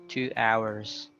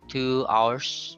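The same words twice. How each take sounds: First: Hours is said as two syllables. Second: Hours is said as one syllable. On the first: The speaker calls it right. "but two hours" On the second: The speaker calls it wrong. "You don't say two hours"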